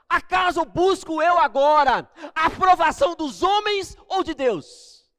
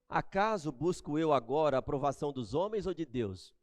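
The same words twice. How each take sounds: First: The question is asked in an angry, forceful tone. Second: The question is asked in a calm, mild tone. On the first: The speaker calls it right. "da segunda maneira. Porque ele estava bravo" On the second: The speaker calls it wrong. "Vocês acham que ele falou assim"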